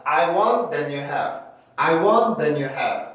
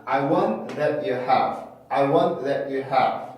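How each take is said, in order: First: "then you" said with an n for the T; wrong n-linking. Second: "that you have" with T stopped before "you"; cut-off T. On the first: Teacher mimicking students' common mistake, T turned into n. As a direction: say "then you have", n gliding into "you". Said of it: "이렇게 발음하시는 분들이 굉장히 많아요". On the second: Teacher showing what most speakers do, T cut off. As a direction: break "that" from "you", no ch. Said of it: "이렇게 발음하는 경우들이 많았는데". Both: Shown as a demonstration.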